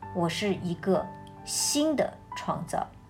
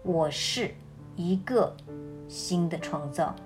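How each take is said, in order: First: The stress is on the word 新的. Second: The stress is on the word 一个.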